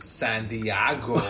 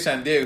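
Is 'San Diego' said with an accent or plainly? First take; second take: accented; plain. First: It is said with an imitated, put-on accent. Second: It is said in a plain, ordinary accent. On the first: "he says it with like an accent" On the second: "He don't say San Diego"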